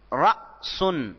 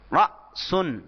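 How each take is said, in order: First: رأسن drawn out slowly with the hamza stopped on jazm; slow careful demo. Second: Said in the usual way. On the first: Shown as a demonstration. Teacher demonstrating رأسن to students, slow and exaggerated. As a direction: say رأسن slowly, marking the glottal stop after ra. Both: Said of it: "اگر اس پر جزم ڈال دیں".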